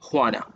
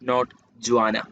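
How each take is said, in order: First: The name begins with an H sound. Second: The name begins with a J sound. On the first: The speaker calls it right. "imagine that the first letter is H" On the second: The speaker calls it wrong.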